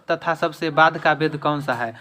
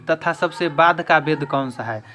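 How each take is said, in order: Both takes have the same delivery.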